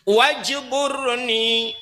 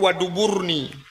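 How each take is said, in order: First: The word is said with a j sound. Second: The word is said with a d sound. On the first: The speaker calls it right. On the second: The speaker calls it wrong.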